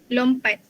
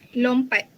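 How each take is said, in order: Both takes have the same delivery.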